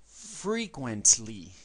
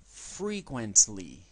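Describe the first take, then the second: First: Frequently said slowly as /frikwentli/; slow model word. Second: Frequently again slowly, /frikwentli/; slow repeat model. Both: Shown as a demonstration.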